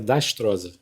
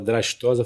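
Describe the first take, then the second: First: The R sound follows the T. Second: The R sound follows the first D. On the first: The speaker calls it wrong. "tem muita gente que erra o nome" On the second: The speaker calls it right. "em vez de falar Drastosa"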